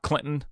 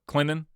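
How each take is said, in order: First: The t in the middle is clearly pronounced. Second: The t in the middle is dropped. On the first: "not Clinton" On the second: "but Clinton"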